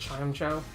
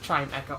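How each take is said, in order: First: The name ends with a 'Joe' sound. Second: The name ends with an 'echo' sound. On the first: This is the habitual way of saying it. "I still pronounce it Chime Joe" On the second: This is probably the official way of saying it. "it probably is pronounced Chime Echo"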